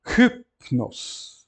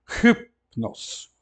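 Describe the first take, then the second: First: Hypnos again with an aspirated H, clear and firm; model pronunciation repeated. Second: Hypnos with an aspirated H and a falling end; model pronunciation. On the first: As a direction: repeat Hypnos for the class to copy. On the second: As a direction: breathe out the H in Hypnos. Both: Shown as a demonstration. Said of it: "aquele U vai ser aspirado".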